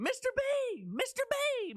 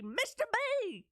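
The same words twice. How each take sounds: First: High, eager call to the teacher; excited calling out. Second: High, slow Texas drawl stretching "B" into many syllables; drawn-out Texas B. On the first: Girl running into the drama room calling her teacher, high and eager. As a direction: call him urgently, pitched way up. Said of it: "I came running into the drama room". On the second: Schoolgirl calling her drama teacher, stretching "B" in a Texas drawl. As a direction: draw the "B" out long in a thick Texas twang. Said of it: "with the sixteen syllables that made up the letter B". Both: Retold or imitated.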